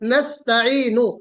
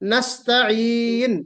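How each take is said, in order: First: The word ends with a short u vowel. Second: The word ends on the consonant n. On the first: The reciter does not pause at the verse end. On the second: The reciter pauses at the verse end.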